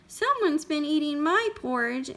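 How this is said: It is said in a wee, small voice.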